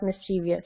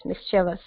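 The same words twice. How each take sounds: First: "mischievous" as mis-CHEE-vee-us; extra ee syllable in "mischievous"; mispronounced mischievous. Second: "mischievous" as MIS-chuh-vus; three syllables only in "mischievous"; corrected mischievous. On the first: Teacher showing a common mistake, "mischievous" as mis-CHEE-vee-us. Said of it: "not mischievous". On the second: Teacher giving the correct word, "mischievous" as MIS-chuh-vus. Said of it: "not mischievous, it's mischievous". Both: Shown as a demonstration.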